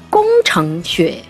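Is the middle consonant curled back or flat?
curled. The ch is curled back, with a back nasal. "比方说工程学"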